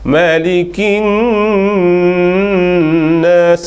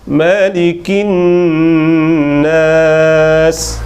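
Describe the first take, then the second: First: The nasal hum is held too long. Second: The nasal hum is held a moderate length. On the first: The speaker calls it wrong. "itu dua lebih" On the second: The speaker calls it right. "itu sapa dua harakat"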